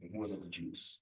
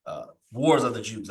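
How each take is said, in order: First: Quiet mutter to self. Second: Said in the usual way. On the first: Real, not acted. Teacher quietly rechecks the book title to himself, muttering. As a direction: murmur the title to yourself, confirming it. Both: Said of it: "I had it right".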